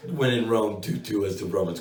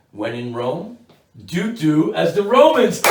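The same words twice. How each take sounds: First: Said in the usual way. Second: Slow, drawn-out, booming proclamation on Romans; mock grand saying. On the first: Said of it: "I'm so sorry". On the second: Shown as a demonstration. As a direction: declaim "do do as the Romans" slowly and loudly, leaning on "Romans".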